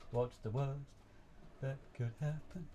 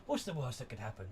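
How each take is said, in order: First: Drawn-out slogan with a rising end; Doctor Pepper slogan. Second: Said in the usual way. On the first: Acted. Quoting the advert before a risky run, teasing slogan delivery. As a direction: pause after "worst", then lift "happen". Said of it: "Doctor Pepper moment".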